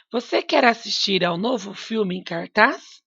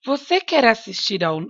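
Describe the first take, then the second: First: Rising at the end like a real question; questioning tune. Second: Said in the usual way. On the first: Shown as a demonstration. Teacher reads a question so students hear the question mark. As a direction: lift the end of the sentence into a question. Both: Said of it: "pela minha entonação".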